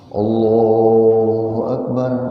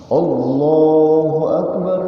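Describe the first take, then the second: First: It is said at a low pitch. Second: It is said at a high pitch. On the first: It marks the first or second prayer cycle. "dengan suara intonasi rendah" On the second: It marks the third or fourth prayer cycle. "dengan nada intonasi yang tinggi"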